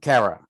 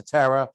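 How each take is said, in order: First: Kara with a K sound, /kʰɛɹə/; Kara said starting with K, not T; corrected name. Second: Tara with a T sound, /tʰɛɹə/; wrong name. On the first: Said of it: "You gotta call it Kara". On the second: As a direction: Tara said starting with T, not K. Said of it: "You won't get far if you call it Tara". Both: Real, not acted.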